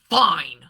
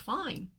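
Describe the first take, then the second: First: The word is said with an annoyed, loaded inflection. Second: The word is said in a flat, neutral tone. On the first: The reader hears displeasure behind the word. "the partner heard fine" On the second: The sender meant nothing more than okay. "all I said was fine"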